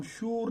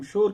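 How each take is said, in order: First: शूर with a long "oo", as "shoor"; wrong long U. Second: Said in the usual way. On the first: Shown as a demonstration. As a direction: say शूर rhyming with "noor". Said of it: "हम शूर नहीं कहते". (शूर کو واؤ معروف سے، "نور" کی طرح بولیں) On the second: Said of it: "हम शोर कहते हैं".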